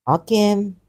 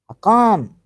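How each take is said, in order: First: "Hakim" with an ee sound in the second syllable; trying a pronunciation. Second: "Hakam" with a long, open second syllable; trying a pronunciation. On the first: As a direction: try out "Hakim", ending in -keem. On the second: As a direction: try out "Hakam", leaning on -kaam. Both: Real, not acted. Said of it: "I not to know how to pronounce".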